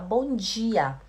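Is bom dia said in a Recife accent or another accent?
another accent. It is said in the speaker's own regional accent. "a gente fala bom dia"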